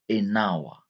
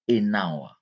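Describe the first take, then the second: No difference in how they are said.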